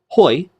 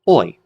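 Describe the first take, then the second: First: It begins with a breathy h sound. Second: It begins directly with the vowel. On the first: The speaker calls it wrong. "instead of hoi" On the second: The speaker calls it right. "it's pronounced oi"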